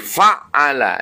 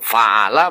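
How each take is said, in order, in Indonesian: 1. Konsonan tengahnya ditahan panjang dan rangkap. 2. Konsonan tengahnya pendek dan tunggal. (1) "menjadi rubai" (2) "itu sulasi"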